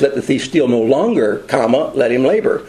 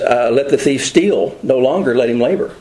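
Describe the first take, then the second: First: There is a pause right after 'no longer'. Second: There is a pause right after 'steal'. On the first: The thief should stop stealing and work instead. The speaker calls it right. "what we should read that is" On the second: The thief is allowed to steal and should stop working. The speaker calls it wrong. "the scripture says"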